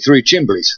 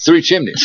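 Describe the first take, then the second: First: The second word is said with an m-bl sound. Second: The second word is said with an m-n sound.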